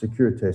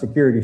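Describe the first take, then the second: First: It is pronounced with a French accent. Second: It is pronounced like the English word security. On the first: The speaker calls it right. "It's sécurité" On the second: The speaker calls it wrong. "it's not security"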